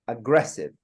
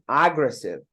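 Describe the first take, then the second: First: The stress is on the second syllable. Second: The stress is on the first syllable. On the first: The speaker calls it right. "correct way is" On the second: The speaker calls it wrong. "if you put the first one"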